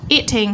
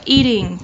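First: "Eating" with a true T in the middle; clear T. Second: "eating" with the T lightly tapped toward D; middle T. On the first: Teacher giving students two options, clear T first. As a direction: sound the T of "Eating" fully. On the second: Teacher giving students the second option, tapped T. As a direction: soften the T in "eating". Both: Shown as a demonstration. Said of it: "T trung âm".

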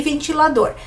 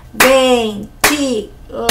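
First: Said in the usual way. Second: "Ventilador" said slowly, clapping out each syllable: ven-ti-la-dor; very slow "Ventilador", one beat per syllable; "Ventilador" dividido sílaba por sílaba, bem devagar; split into syllables. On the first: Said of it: "minha boca abriu quatro vezes". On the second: Shown as a demonstration. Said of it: "minha boca abriu quatro vezes, né? Então, tem quatro sílabas".

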